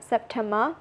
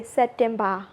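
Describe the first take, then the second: First: SEPTEMBER with P and T, soft final "ber"; English pronunciation. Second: SEPTEMBER in Burmese accent, "set-tem-BA". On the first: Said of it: "but we say September". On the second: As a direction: say SEPTEMBER the Burmese way, open A ending. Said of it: "in Burmese accent". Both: Shown as a demonstration.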